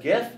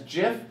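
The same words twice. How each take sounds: First: It begins with a hard g sound. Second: It begins with a soft j sound. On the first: The speaker calls it right. "which I pronounce as GIF" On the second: The speaker calls it wrong. "you are doing it wrong"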